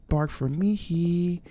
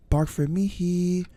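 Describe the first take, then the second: No difference in how they are said.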